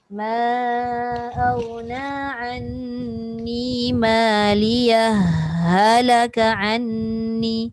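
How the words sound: The final h merges straight into halaka. "Dia terus masukkan pada ha"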